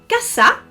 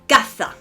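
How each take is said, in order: First: The middle consonant is a plain s sound. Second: The middle consonant is a lisped th sound.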